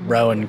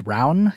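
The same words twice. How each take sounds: First: Rowan said as two syllables, ROH-an; out-of-town mispronunciation of Rowan as ROH-an; mispronounced Rowan. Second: Rowan said as ROW'N, rhyming with crown; corrected Rowan, run together like "rown"; local pronunciation of Rowan. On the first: Real, not acted. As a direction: say Rowan with a long O, like an out-of-towner. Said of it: "classic out-of-town reporter mistake". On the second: Shown as a demonstration. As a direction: give Rowan the local "ow" sound, as in cow. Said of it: "it's actually pronounced".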